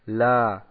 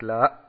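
First: The vowel is held long at the end. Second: The vowel is cut off short and abrupt. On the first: The speaker calls it right. "dass man hier den langen Vokal ausspricht" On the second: The speaker calls it wrong. "dass man nicht dann abhackt, dass man nicht sagt La"

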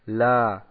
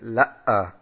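First: The vowel is held long at the end. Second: The vowel breaks with a catch before ending. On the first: The speaker calls it right. "dass man hier den langen Vokal ausspricht" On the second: The speaker calls it wrong. "dass sie sagen La'a. Das ist an sich falsch"

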